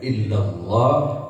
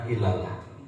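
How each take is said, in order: First: The sounds are lengthened and the L is heavy. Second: The sounds are short and the L is light. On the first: The speaker calls it right. "panjangkan, tafkhimkan, tebalkan" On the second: The speaker calls it wrong. "Jangan ilalah"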